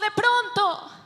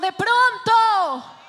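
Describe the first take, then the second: First: It is said flatly, without emotion. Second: It is said with excited emotion.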